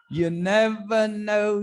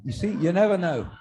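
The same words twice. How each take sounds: First: Slow, higher and stretched; drawn out for effect. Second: Said in the usual way. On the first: Shown as a demonstration. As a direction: dwell on never, spacing out never and know. Comic repeating the closing line.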